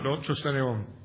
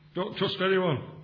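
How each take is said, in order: First: It is spoken in a neutral accent. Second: It is spoken in a northern accent.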